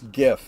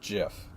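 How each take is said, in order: First: It begins with a hard G sound. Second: It begins with a soft G sound. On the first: The speaker calls it right. "It's a hard G" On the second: The speaker calls it wrong. "not GIF"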